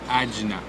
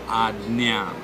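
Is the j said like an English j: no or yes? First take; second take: yes; no. First: The j is said like an English j. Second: The j is not said like an English j. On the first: The speaker calls it wrong. "I've heard a lot of people saying Ajna" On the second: The speaker calls it right. "The J is not literally to be pronounced as J, but it is Ajna"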